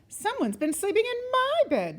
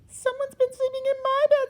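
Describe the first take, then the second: First: It is said with a middle-sized growl. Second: It is said with a wee little growl.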